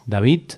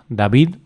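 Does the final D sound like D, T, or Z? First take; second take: T; D. First: The final D sounds like a T. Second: The final D sounds like a D. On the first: "podría pronunciarse como sonido T" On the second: "lo correcto ... es pronunciar"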